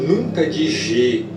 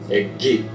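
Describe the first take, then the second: First: It is a soft zh-like sound. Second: It is a hard g sound. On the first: The speaker calls it wrong. "Nunca de G. Nunca" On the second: The speaker calls it right.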